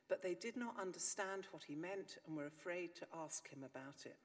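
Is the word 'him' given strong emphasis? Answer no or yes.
no. The word 'him' carries no special stress. They were afraid to ask at all. "one way of reading Mark 9:31 is this"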